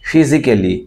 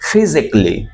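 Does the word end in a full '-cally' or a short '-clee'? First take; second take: cally; clee. First: The ending is a full 'cally' syllable. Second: The ending is a short, reduced 'clee'. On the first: The speaker calls it wrong. "সাধারণত মানুষ বলে থাকে ফিজিক্যালি, ফিজিক্যালি not ক্যালি" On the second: The speaker calls it right. "ক্লি, physically"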